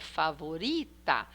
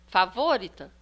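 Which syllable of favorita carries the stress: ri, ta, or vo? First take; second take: ri; vo. First: The stress is on the second-to-last syllable. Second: The stress is on the third-to-last syllable. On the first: The speaker calls it right. "então é favorita. É uri, que é penúltima" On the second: The speaker calls it wrong. "nós vamos tentar a antepenúltima"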